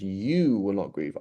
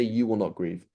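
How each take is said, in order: First: YOU drawn out, then the rest falling; emphatic, lengthened YOU; stress on YOU. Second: Said in the usual way. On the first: Shown as a demonstration. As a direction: lean slowly on the word YOU. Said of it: "but it says". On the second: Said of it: "It doesn't say".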